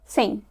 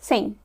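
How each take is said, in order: The two takes are said the same way.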